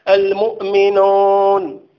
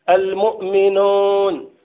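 Both takes have the same delivery.

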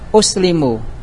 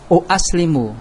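First: The word starts with one glottal stop. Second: The word starts with two glottal stops. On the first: The speaker calls it right. "Itu ringan" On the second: The speaker calls it wrong. "Berat kata mereka"

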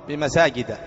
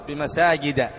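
No difference in how they are said.

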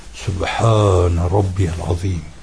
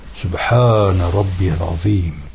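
First: The phrase is said fully with every vowel pronounced. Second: The phrase is said fully with every vowel pronounced.

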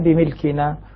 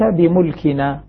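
First: The m is followed by the vowel i. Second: The m is followed by the vowel u. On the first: "والباقون بالكسر" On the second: "بضم الميم"

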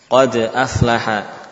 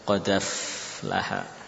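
First: A glottal stop separates qad from aflaha. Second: The glottal stop is dropped; the d links to a. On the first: "Misalnya ada huruf sukun lalu ada hamzah" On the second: "Hamzahnya hilang. Tadi harokat fathahnya pindah ke dal"

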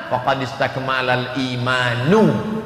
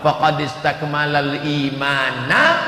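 First: The last word ends with a 'u' vowel. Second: The last word ends with an 'a' vowel. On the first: The person's faith has become perfect. "kalau dibaca faqad istakmalal imanu, imannya sudah sempurna" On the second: The person has perfected his faith. "Kalau dibaca faqad istakmalal imanna, dia sudah menyempurnakan imannya"

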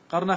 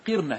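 First: The first vowel is an 'a' sound. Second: The first vowel is an 'i' sound. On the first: The speaker calls it wrong. "قرنا خطأ" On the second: The speaker calls it right. "قرنا هي بكسر القاف"

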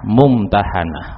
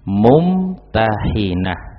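First: The vowel after the n is 'a'. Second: The vowel after the n is 'i'. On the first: It refers to the woman who is tested. "Itu kalau dibaca dengan bacaan fathah" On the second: It refers to the one who does the testing. "di kasroh nunnya"

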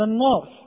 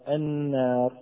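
First: The long vowel is heavy, with a darkened sound. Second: The long vowel is light, with a thin sound. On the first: The speaker calls it wrong. "أخطأ من قال النار" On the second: The speaker calls it right. "وفي الترقيق"

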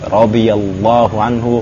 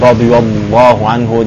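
First: The L sound is pronounced light and thin. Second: The L sound is pronounced heavy and thick. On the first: The speaker calls it right. "jadi radhiyallahu anhu" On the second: The speaker calls it wrong. "Jadi bukan radhiyallahu anhu"

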